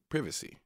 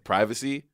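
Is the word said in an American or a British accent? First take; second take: British; American. First: It is said in a British accent. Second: It is said in an American accent.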